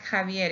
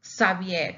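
First: "Javier" starting with a Spanish j, ha-VYER; J sound. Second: "Xavier" starting with an s, sa-VYER; S sound for X. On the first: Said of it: "it's Javier, even though it has an X". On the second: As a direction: say "Xavier" with s in place of the Spanish j. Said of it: "No, it's not Javier, it's Xavier". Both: Shown as a demonstration.

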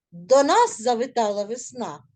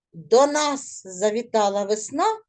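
First: Нас stressed, then falling. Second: Весна stressed, with a rising end. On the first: Teacher shows pupils which word to stress, нас stressed. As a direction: put the weight on нас. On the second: Teacher shows pupils which word to stress, весна stressed. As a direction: lean on весна at the close. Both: Shown as a demonstration. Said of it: "з наголосом вимовляти слова".

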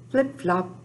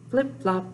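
The two takes are said the same way.

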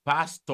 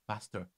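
First: PASTOR with open final "aw", no r; local pronunciation. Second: Pastor with an American r ending; American accent. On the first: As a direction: say Pastor as "pas-TAW". Contrasting with the American way. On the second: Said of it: "if you want to be very American". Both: Shown as a demonstration.

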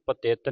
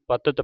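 First: ਪਤਿਤ said as "pa-tet"; ਪਤਿਤ with second vowel "e"; e in second syllable. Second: ਪਤਿਤ said as "pa-tat"; ਪਤਿਤ with a brief neutral second syllable; short second vowel. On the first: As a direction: put a clear e in the middle of ਪਤਿਤ. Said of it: "ਇਹਨੂੰ ਪਤਿਤ ਨਹੀਂ ਪੜ੍ਹਨਾ". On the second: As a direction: keep the middle vowel of ਪਤਿਤ short, not e. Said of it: "ਇਹਨੂੰ ਪਤਿਤ ਪੜ੍ਹਨਾ ਹੈ". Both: Shown as a demonstration.

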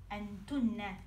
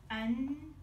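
First: Said in the usual way. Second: "Entunne" said slowly, with a long double n and a rising end; careful pronunciation. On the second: Shown as a demonstration. Teacher showing students how to say "Entunne", held double n. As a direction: model "Entunne" for students, holding the nn. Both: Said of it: "si pronuncia così".

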